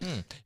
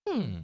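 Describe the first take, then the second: First: It is a plain, neutral hmm. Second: It is a theatrical hmm in a character voice.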